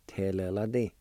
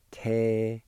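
First: Te-le-la-ti run together as one word; joined-up pronunciation. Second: Te-le-la-ti with a clear gap after each syllable; syllable-by-syllable pronunciation. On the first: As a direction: say Te-le-la-ti connected, without gaps. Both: Shown as a demonstration. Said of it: "is pronounced like this".

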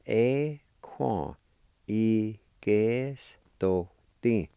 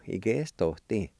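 First: Y que esto ti drawn out slowly, syllable by syllable; slow careful demo. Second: Said in the usual way. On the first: Shown as a demonstration.

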